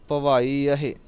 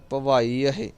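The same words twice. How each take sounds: The two takes are said the same way.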